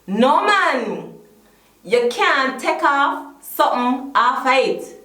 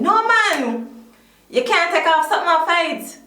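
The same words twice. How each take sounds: First: It is said slowly. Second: It is said at normal speed.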